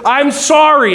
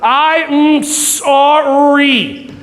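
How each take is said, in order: First: It is said quickly, run together. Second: It is said slowly, word by word.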